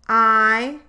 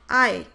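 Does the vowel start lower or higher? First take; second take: lower; higher. First: The vowel starts from a lower position. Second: The vowel starts from a higher position. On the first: "In wide, the vowel starts at a lower jaw position"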